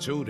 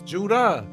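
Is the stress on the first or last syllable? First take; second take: first; last. First: The stress is on the first syllable. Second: The stress is on the last syllable. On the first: The speaker calls it wrong. "it ain't just Judah" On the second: The speaker calls it right. "You gotta put emphasis on the last uh what's that shit called?"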